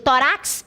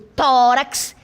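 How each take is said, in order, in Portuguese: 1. A sílaba tônica está na última. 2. A sílaba tônica está na primeira. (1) "eu não digo tórax" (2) "eu digo tórax. Sílaba tônica, aqui ... é uma paroxítona"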